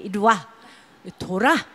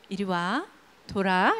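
First: It is said forcefully, with strain. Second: It is said softly and gently.

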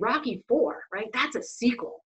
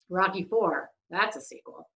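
First: The voice sounds excited and enthusiastic. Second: The voice sounds sarcastic and unenthusiastic. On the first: The speaker is genuinely happy about the sequel. "Kind of sounds excited" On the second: The speaker is mocking the sequel. "that's sarcasm"

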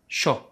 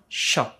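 First: The consonant sounds like an English 'sh'. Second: The consonant sounds like an English 'sh'.

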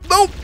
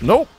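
First: The word is said at a higher pitch. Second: The word is said at a lower pitch.

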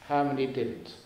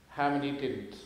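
Both takes have the same delivery.

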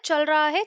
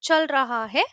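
First: It is said fast, with 'raha' reduced to 'ra'. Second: It is said carefully, with the full 'raha'.

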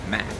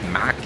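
First: It is said with an English pronunciation. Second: It is said with a Brazilian Portuguese pronunciation. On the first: "Mas a pronúncia em inglês é Mac" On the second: "Em português a gente fala Mac"

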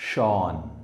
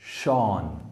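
The two takes are said the same way.

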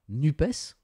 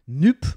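First: Every letter, including the ending, is sounded. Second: The final letters are left silent.

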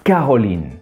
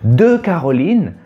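First: The e of de is dropped. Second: The e of de is pronounced fully.

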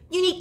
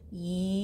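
First: It is said quickly. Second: It is said slowly.

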